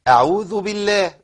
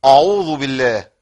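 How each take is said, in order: First: أعوذ بالله with a thin, light hamza. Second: أعوذ with a loud, thickened hamza; wrong heavy hamza. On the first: Teacher showing students the light hamza, slowly. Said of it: "حروفها مرققة". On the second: Teacher showing students a wrongly thickened hamza, loud. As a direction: punch the opening of أعوذ loud and heavy, as a mistake. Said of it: "ما تقولش". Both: Shown as a demonstration.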